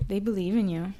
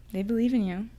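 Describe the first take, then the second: No difference in how they are said.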